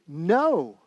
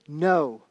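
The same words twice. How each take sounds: First: The word is said with stronger force. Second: The word is said with ordinary force.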